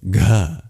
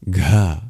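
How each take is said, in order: No difference in how they are said.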